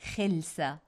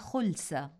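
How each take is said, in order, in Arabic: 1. الحركة الأولى هي i. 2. الحركة الأولى هي u. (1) "ولنتجنب القول خلسة بالكسر" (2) "فلنقل أخذ الشيء خلسة بالضم"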